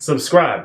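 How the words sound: The vowel is a flat, drawn-out 'ah' sound. "that long I sound that gets turned into like a Ugh"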